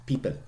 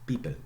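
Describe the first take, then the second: The two takes are said the same way.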